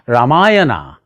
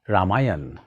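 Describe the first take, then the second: First: The word ends with a final vowel sound. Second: The word ends on a consonant, no vowel. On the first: The speaker calls it wrong. "Instead of saying Ramayana" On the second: The speaker calls it right. "start saying Ramayan"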